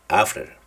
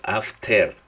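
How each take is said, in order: First: "after" with a weak, reduced final syllable; schwa ending. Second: "after" with a full Spanish "ter", af-TER; wrong pronunciation demo. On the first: Teacher modelling for students, "after" with a reduced schwa ending. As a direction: let the end of "after" relax into a schwa. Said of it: "se va a pronunciar como la letra schwa". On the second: Teacher showing students the mistake, "after" said af-TER with full vowel. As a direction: spell out the ending of "after" with a clear E and tapped R. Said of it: "no van a decir ustedes after". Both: Shown as a demonstration.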